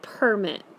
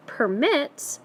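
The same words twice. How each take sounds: First: "permit" said PER-mit; stress on first syllable. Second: "permit" said per-MIT; stress on second syllable. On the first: Teacher doing another one, stressed PER-mit. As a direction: noun form "permit", PUR-mit, weight up front. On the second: Teacher looking at the other word, stressed per-MIT. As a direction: verb form "permit", pur-MIT, weight on the ending. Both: Shown as a demonstration. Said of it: "it changes the way you say the word".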